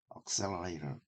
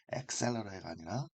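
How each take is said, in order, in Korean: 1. 첫 번째 모음은 'ah'처럼 들립니다. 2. 첫 번째 모음은 'eh'처럼 들립니다. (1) "억셀러레이터가 더, 어, 영어 나온 발음입니다"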